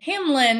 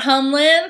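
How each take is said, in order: First: The first syllable sounds like 'ham'. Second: The first syllable sounds like 'hum'. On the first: The speaker calls it right. "Hamlin, not Humlin" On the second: The speaker calls it wrong. "not Humlin"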